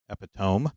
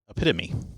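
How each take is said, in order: First: The O is said as a long O. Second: The O is not said as a long O. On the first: The speaker calls it wrong. "creating that O to be a long O" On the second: The speaker calls it right. "it is pronounced epitome"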